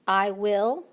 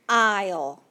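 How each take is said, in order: First: It is said as two full words. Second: It is contracted into one short syllable.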